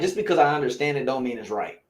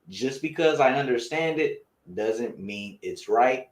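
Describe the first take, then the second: First: The sentence is spoken at a quicker pace. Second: The sentence is spoken at a slower pace.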